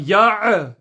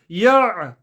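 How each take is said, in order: First: The throat sound ends with a bouncing echo. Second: The throat sound ends smoothly without bouncing. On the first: The speaker calls it wrong. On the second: The speaker calls it right.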